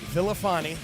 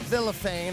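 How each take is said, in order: First: The name is said with an Italian-sounding ending. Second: The name is said without an Italian-sounding ending. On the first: The speaker calls it wrong. "not Villafani ... he doesn't look Italian to me" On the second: The speaker calls it right. "make sure we pronounced it Villafane"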